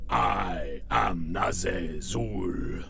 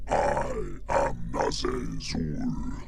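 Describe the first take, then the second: First: Slow, breathy monster announcer; best radio voice. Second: Slow, detuned deep monster voice; a slowed, deepened demon line; pitched-down monster. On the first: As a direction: drag it out low and slow like a villain. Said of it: "my best radio voice". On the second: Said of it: "I activated it". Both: Shown as a demonstration.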